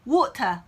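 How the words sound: It is said in a British accent. "이번엔 영국식 물이에요"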